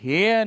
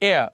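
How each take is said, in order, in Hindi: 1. यह शब्द एक सुनाई देने वाली h ध्वनि से शुरू होता है। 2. यह शब्द स्वर से शुरू होता है, इसमें h नहीं है। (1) "हेयर नहीं कहेंगे" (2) "इसको आप प्रोनाउंस नहीं कहेंगे"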